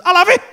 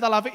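First: High, loud sudden outburst; impulsive blurt. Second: Said in the usual way. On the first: Retold or imitated. Customer after revving the engine, impulsive blurt.

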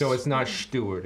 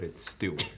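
First: "Stuart" with a sh, as "Shtuart"; accented pronunciation. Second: Said in the usual way. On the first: Shown as a demonstration. Newcomer checking the name, saying "Stuart" accented as "Shtuart". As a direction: begin "Stuart" with a drawn-out sh. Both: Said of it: "that's Stuart's accent".

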